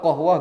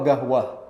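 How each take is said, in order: First: The word starts with a deep k-like sound. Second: The word starts with a hard g sound. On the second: "jadi go"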